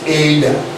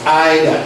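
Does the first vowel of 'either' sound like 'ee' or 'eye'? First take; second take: ee; eye. First: The first vowel sounds like 'ee'. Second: The first vowel sounds like 'eye'. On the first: The speaker calls it wrong. "not either" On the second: The speaker calls it right. "This word is pronounced as either"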